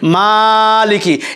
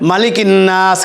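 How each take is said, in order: First: The first vowel is stretched to twice its length. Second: The first vowel is short, not stretched. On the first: "এখানে কিন্তু টান হবে মালিকি, একালিপ পরিমাণ টান হবে" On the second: "এখানে কিন্তু টান নেই"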